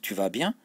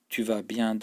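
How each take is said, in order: First: It is said with emphasis, like a question. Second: It is said flat, like a plain statement. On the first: Are you well? "iyi misin?" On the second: You are well. "düz bir cümle olarak kullanırsam"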